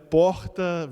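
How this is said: The R has a Rio de Janeiro sound. "the whole carioca"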